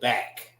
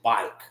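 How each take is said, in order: First: The vowel is a plain short 'a'. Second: The vowel glides like 'ai' in bike. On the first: This is how other places say the word. "we don't say back" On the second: This is how the speaker's local dialect says the word. "we say bike. That's how we pronounce it"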